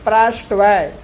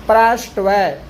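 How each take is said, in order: Both takes have the same delivery.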